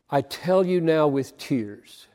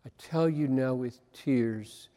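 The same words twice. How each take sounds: First: Said in the usual way. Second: Quiet. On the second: Shown as a demonstration. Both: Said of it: "could not get away from".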